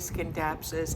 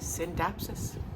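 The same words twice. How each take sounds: First: The C sound is pronounced at the start. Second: The C sound is silent at the start. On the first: The speaker calls it wrong. "everybody was saying Scindapsus" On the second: The speaker calls it right. "the C is silent"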